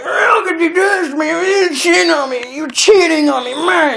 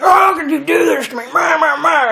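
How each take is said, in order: First: Put-on much higher shouted parody of an angry girlfriend; hammed-up high accusing yell; mock shouting girlfriend. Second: Much higher mocking voice of a weeping girlfriend; high mock sobbing girlfriend imitation; mock crying girlfriend. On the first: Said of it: "the woman's like". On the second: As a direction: parody her tearful complaint, pitched way up. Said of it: "She's, like, all crying".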